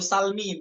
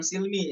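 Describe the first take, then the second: First: The first vowel is an a sound. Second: The first vowel is an i sound. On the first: The speaker calls it right. "Itu salmi" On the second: The speaker calls it wrong. "bukan silmi"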